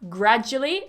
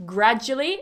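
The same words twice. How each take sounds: First: The word is said with three syllables. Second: The same.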